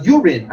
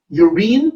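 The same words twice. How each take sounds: First: "urine" said as YOOR-in; corrected pronunciation. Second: "Urine" said as yoo-REEN; mispronounced urine. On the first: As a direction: stress the first syllable of "urine", short second vowel. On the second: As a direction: say "Urine" with a long ee, stressed at the end. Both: Shown as a demonstration. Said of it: "actually it's pronounced urine".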